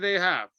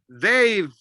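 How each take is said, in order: First: The two words are said separately and fully. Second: The two words are joined into one syllable. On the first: The speaker calls it wrong. "Don't say they have" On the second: The speaker calls it right. "Connected as one"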